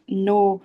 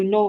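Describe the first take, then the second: First: "no" with the o stretched out; long vowel. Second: "no" with a brief o; short vowel. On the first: Teacher contrasting two readings of one word, long vowel. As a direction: hold the o in "no" for two beats. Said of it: "nó sẽ là trường âm". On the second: Teacher contrasting two readings of one word, short vowel. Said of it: "nó sẽ khác nhau". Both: Shown as a demonstration.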